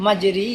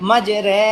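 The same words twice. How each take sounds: First: মাঝে রি with an i sound in রি; expected reading. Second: মাঝে রে with an e sound in রে; e-vowel reading. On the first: Teacher to students, the reading one would expect. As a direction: say রি with the usual i vowel. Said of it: "কিন্তু এখানের মধ্যে হবে কি?". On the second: Teacher to students, the correct special reading. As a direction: say রে with an e vowel, not রি. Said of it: "একারে উচ্চারণ দিবে". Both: Shown as a demonstration.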